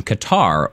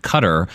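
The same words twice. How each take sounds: First: Said in the usual way. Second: "Qatar" said like "cutter"; local pronunciation. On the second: Shown as a demonstration. Host giving a listener's country as locals say it, local pronunciation. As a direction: say "Qatar" with the stress up front, CUT-ter. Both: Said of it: "as I believe the locals pronounce it".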